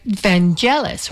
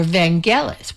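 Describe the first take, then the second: First: "[name]" with a soft G, like "Van-jellis". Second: "[name]" with a hard G, like "Van-ghellis". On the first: Host giving a similar puzzle, "[name]" with a soft G. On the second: Host giving a similar puzzle, "[name]" with a hard G. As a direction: say the G in "[name]" as in "get". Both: Shown as a demonstration. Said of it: "was it a hard G".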